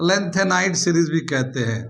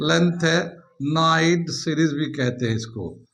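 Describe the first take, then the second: First: Said in the usual way. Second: Lanthanide drawn out syllable by syllable; slow dictation. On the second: Real, not acted. Teacher repeating a series name for students, slow dictation. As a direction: repeat the term slowly for note-takers.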